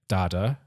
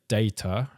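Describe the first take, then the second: First: It is said with an American accent. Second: It is said with a British accent. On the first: "Americans say data" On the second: "British people say data"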